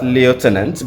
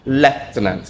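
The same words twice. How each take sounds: First: The word has an American pronunciation. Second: The word has a British pronunciation. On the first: "that is how the American pronunciation of the word is" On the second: "That is how the British pronunciation for the word goes"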